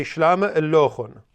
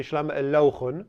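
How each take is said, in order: First: "Shlama illochun" 重音在 Shlama，尾音下降; 清楚念出 "Shlama illochun"; standard stress. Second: "Shlama illochun" 元音换个读法，尾音上扬; 像别村那样念 "Shlama illochun"; village variant. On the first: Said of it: "you say". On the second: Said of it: "really stress the vowel in a different way". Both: Shown as a demonstration.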